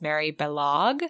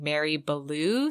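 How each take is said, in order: First: The surname ends in a 'log' sound. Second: The surname ends in an open 'loo' sound. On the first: The speaker calls it right. "the correct pronunciation is Balog. She says it rhymes with Kellogg" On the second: The speaker calls it wrong. "We had been saying Mary Ballou"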